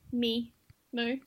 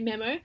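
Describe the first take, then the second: First: The first vowel is long. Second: The first vowel is short. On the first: "you're saying both the long vowel sounds that way" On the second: "I say memo"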